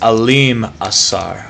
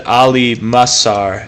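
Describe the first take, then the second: First: The m sound ends the first word. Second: The m sound starts the second word. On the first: The speaker calls it right. "It's Alim Asar" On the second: The speaker calls it wrong. "I've always said Ali Masar"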